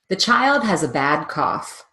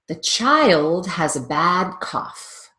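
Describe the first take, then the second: First: The sentence is spoken quickly. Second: The sentence is spoken slowly. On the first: "Now speed it up"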